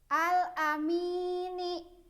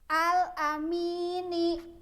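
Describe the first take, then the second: The two takes are said the same way.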